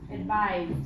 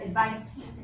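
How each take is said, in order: First: The middle sound is a buzzing Z. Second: The middle sound is a hissing S. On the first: The speaker calls it right. "It sounds like a Z" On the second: The speaker calls it wrong. "It would be different if I said advised"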